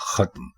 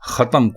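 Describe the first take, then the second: First: The final two consonants are said together. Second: A vowel separates the final two consonants. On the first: The speaker calls it right. "दुरुस्त लफ्ज है खत्म" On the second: The speaker calls it wrong. "खत्म कोई लफ्ज नहीं है"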